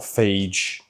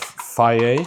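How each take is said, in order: First: The word ends with a 'zh' or 'j' sound. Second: The word ends in a plain vowel sound. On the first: The speaker calls it wrong. "not phage" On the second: The speaker calls it right. "we're gonna go with the whole pot of faye"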